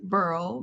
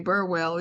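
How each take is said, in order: First: The name is said with one syllable. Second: The name is said with two syllables. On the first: This is how the other person's side says the name. "You you pronounce it Burl" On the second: This is how the speaker's side says the name. "We we say Burwell"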